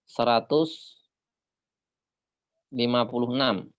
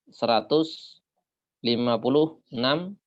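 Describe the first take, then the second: No difference in how they are said.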